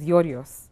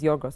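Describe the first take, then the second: First: The name is said in its formal official form. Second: The name is said in its informal everyday form. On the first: This is the official form nobody actually uses. "the official version is Yorios" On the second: This is the form people actually use. "the informal way of saying it is Yorgos"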